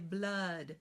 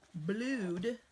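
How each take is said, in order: First: The vowel sounds like 'uh'. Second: The vowel sounds like 'oo'. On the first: This is the everyday pronunciation. "We say blood, uh" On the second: This pronunciation helps with spelling the word. "we're going to think to spell blued"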